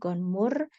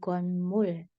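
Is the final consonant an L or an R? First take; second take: R; L. First: The final consonant is an R sound. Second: The final consonant is an L sound. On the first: The speaker calls it wrong. "jadi bukan lagi gonmur" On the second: The speaker calls it right. "Jadi pakai L ya"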